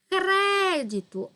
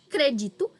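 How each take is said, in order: First: The stress is on the first syllable. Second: The stress falls on a later syllable. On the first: It is the noun. "com acento no E, é o substantivo" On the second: It is the verb. "quer dizer o verbo"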